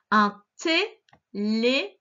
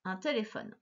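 First: Téléphone drawn out slowly, syllable by syllable; syllabified reading. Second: Said in the usual way. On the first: Shown as a demonstration. Teacher sounding out téléphone for a young reader. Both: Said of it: "Je vais les lire avec toi".

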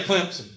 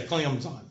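First: "Clemson" said as "Clemp-sun". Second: "Clemson" as "Clem-zine", no P; lower, softer "Clemson", drawn to "CLEM-zine"; announcer's Clemson. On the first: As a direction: put a P before the S in "Clemson". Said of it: "They won't say Clemson with a P". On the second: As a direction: imitate announcers saying "Clemson" with a Z. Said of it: "They say Clemson". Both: Shown as a demonstration.

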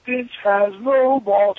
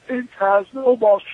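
First: Slow taunt. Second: Taunting the crowd. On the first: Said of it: "I go look at him". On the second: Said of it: "looked at the crowd and said". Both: Retold or imitated.

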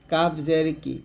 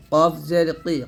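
First: Light K in কাফ and কি; thin kaf. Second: Heavy, back-of-throat Q in কফ and কি; thick qof. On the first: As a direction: say কি thinly, without the heavy qof. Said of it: "আর কাফটা পাতলা হবে এরকম". (কাফ পাতলা উচ্চারণে) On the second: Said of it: "অবশ্যই মোটা করতে হবে". (কফ মোটা উচ্চারণে) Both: Shown as a demonstration.

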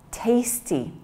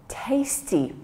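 First: Breathy whisper of tasty with no voice. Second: Said in the usual way. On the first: Shown as a demonstration. Teacher whispers the word for the class to repeat. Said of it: "Say it with me". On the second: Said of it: "The next word is".

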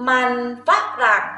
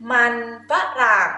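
Both takes have the same delivery.

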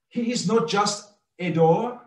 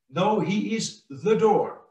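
First: "a" given weight as a full word, raised pitch; stress on A. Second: "the" lifted and weighted, "door" falling; stress on THE. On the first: Preacher rejecting one door among others, stress on "a". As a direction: set "a" apart before "door". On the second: Preacher insisting there are no others, stress on "the". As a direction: land firmly on "the door". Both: Shown as a demonstration. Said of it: "we can underline".

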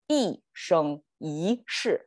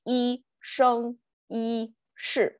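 First: 一生一世 with falling 一, flat 生, rising second 一, falling 世; natural tone flow. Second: 一生一世 slowly, syllable by syllable, high level tones, falling only on 世; robotic level tones. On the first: Teacher showing learners the better flow, 一生一世 in falling, flat, rising, falling tones. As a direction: curve the tones of 一生一世: down, level, up, down. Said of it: "falling tone, flat, rising tone".

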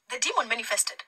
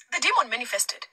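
The two takes are said the same way.

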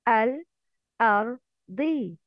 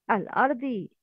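First: الأرضي slowly in separate pieces, al, ar, dii; clear sounded lam. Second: Said in the usual way. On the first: Shown as a demonstration. Teacher showing students the lam with sukoon, slow and segmented الأرضي. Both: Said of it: "لام قمرية has سكون".

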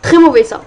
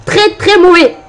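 First: Said in the usual way. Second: "Très, très mauvais" higher and louder, hitting the first "Très"; stress on très. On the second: Real, not acted. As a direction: punch the first "Très" up and loud.

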